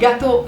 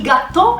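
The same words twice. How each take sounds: First: It has a short single t, French style. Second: It has a doubled t and final stress. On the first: This is the French dish. "non il gâteau francese" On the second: This is the Neapolitan dish. "con due T e con l'accento sulla O"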